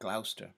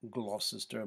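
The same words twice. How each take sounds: First: The middle syllable is dropped entirely. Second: The middle syllable is kept in full. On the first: The speaker calls it right. "but Gloucester" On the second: The speaker calls it wrong. "is not Gloucester"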